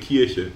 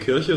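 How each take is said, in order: First: The I vowel has the regional Märkisch colouring. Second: The I vowel sounds like standard German. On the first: "sondern eine Kirche" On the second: "keine Kirche"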